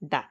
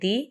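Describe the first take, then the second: First: The word ends in an 'uh' vowel. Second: The word ends in an 'ee' vowel. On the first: The next word starts with a consonant sound. "Consonant সাউন্ডের আগে দা" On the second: The next word starts with a vowel sound. "ভাওয়াল সাউন্ডের আগে দি"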